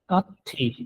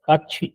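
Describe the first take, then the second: First: The middle consonant is a plain t sound. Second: The middle consonant is a ch sound. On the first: The speaker calls it wrong. "काथी ये गलत साउंड है" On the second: The speaker calls it right. "काछी इसका होगा दुरुस्त साउंड"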